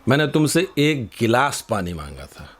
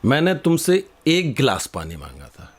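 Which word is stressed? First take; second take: गिलास; एक. First: The word गिलास carries the strongest stress. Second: The word एक carries the strongest stress. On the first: I asked for a glass, not a whole pot. "तुम ये पूरा मटका क्यों ले आए?" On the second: I asked for one glass, not several. "तुम ये पांच गिलास क्यों लेकर के आ गए?"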